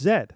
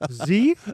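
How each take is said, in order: First: The letter is said the Canadian way. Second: The letter is said the American way. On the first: The speaker calls it right. "No, it's Z" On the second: The speaker calls it wrong. "I'm like"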